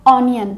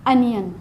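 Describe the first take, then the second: First: The first vowel sounds like 'on'. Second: The first vowel sounds like 'un'. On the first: The speaker calls it wrong. "कई लोग इसे क्या पढ़ते हैं" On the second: The speaker calls it right. "पर क्या होता है ये एक्चुअल में"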